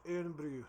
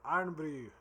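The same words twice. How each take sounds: First: Irn-Bru with first syllable like "ear-n"; trial pronunciation. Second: Irn-Bru with first word like "iron", louder; iron pronunciation. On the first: Unsure how to say the Scottish drink, Irn-Bru as "eern-broo". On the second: Trying the Scottish drink's name, Irn-Bru as "iron-brew". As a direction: say "Irn-Bru" as "EYE-urn-broo". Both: Shown as a demonstration. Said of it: "I don't know necessarily how to say it".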